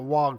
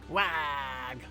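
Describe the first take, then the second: First: It is said plainly with its usual vowel. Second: It is said Wario-style with a changed vowel.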